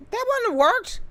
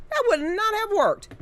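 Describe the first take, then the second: First: Wouldn't said high and rising, squeezed short; a quick high "wouldn't", tossed off; contracted quick. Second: "would not" said as two full separate words, high and firm; every word spelled out, firm. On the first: Correcting his grammar on stream, quick high wouldn't. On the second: Correcting himself on stream, firm spelled-out would not. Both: Shown as a demonstration.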